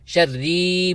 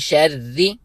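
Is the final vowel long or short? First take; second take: long; short. First: The final vowel is drawn out long. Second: The final vowel is kept short. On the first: The speaker calls it wrong. "खींचना भी नहीं है" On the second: The speaker calls it right. "एक हरकत की मिकदार"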